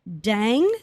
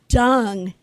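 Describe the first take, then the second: First: The vowel sounds like the one in 'bed'. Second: The vowel sounds like the one in 'cup'. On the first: The speaker calls it wrong. "I was mispronouncing my possible relative's name" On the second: The speaker calls it right. "It's Dung, he corrected me"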